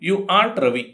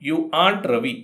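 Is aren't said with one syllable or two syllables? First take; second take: one syllable; one syllable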